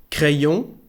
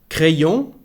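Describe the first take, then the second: No difference in how they are said.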